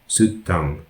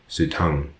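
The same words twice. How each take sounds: First: The double consonant is said as two sounds. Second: The double consonant is merged into one sound. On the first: The speaker calls it right. "Double consonants must be clearly articulated as two sounds" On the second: The speaker calls it wrong.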